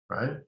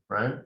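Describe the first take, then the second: No difference in how they are said.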